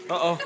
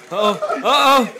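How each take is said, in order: First: Said in the usual way. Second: Loud rising uh oh; hyped warning call; excited uh oh. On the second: Real, not acted. Fight starting again.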